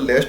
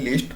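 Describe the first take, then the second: First: The vowel is short, as in 'let'. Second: The vowel is long, as in 'leaf'. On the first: The speaker calls it wrong. "लेस्ट नहीं" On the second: The speaker calls it right. "लीस्ट pronounce करेंगे"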